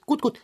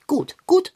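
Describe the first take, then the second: First: Calming down. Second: High, hurried, worked-up repeats; a bit worked up, pushing himself to settle; agitated. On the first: Cat Long John calming himself before telling his problem. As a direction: talk yourself down from the agitation. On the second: Cat Long John, agitated about the hole, calming himself. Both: Acted. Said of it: "Ich muss mich beruhigen".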